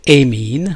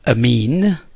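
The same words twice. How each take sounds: First: It is said with a British pronunciation. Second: It is said with an American pronunciation. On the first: "in U K they would say amine" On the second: "it is uh, pronounced as amine"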